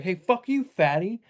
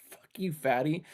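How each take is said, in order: First: High mock road rage yell; much higher, a mock shout at the other car. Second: Only a mild mock yell, a touch higher; a quieter retelling of the yelled insult; retold insult. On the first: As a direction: yell the insult out the car window. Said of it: "yelling at these people". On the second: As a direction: toss the insult off lightly. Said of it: "the other guy in the other car is like".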